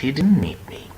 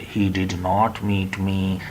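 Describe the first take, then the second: First: 'Did not' is contracted to one syllable, 'didn't'. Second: Both words 'did not' are said in full. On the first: The speaker calls it right. "But like that" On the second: The speaker calls it wrong. "you should not uh, uh, go for saying"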